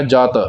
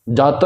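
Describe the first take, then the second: First: ਜਤ with a soft, single t; soft pronunciation. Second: ਜਤ with a tight doubled t, "jatt"; tight pronunciation. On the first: Teacher showing the correct word, soft ਜਤ. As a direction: say ਜਤ loosely, no pressure on the t. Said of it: "ਇਸ ਨੂੰ ਪੋਲਾ ਕਰਕੇ". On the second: Teacher showing what to avoid, tightened ਜਤ. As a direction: press hard on the t in ਜਤ. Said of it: "ਕੱਸ ਕੇ ਉਚਾਰਨ ਨਹੀਂ ਕਰਨਾ". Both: Shown as a demonstration.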